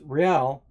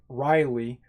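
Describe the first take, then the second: First: The name sounds like 'Real', in one syllable. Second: The name sounds like 'Riley', with two syllables. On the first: The speaker calls it right. "but it's Real" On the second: The speaker calls it wrong. "some people call him Riley"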